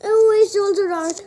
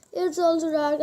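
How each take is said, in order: First: Alarmed. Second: Said in the usual way. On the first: Real, not acted. Dread at another dark chocolate.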